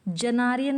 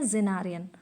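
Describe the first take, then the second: First: जेनारियन with a "j" sound at the start; the mistaken "j" version of जेनारियन; wrong pronunciation. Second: जेनारियन with a "z" sound at the start, lower; the corrected "z" version of जेनारियन, pitched down; corrected pronunciation. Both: Shown as a demonstration. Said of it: "जेनारियन नहीं है".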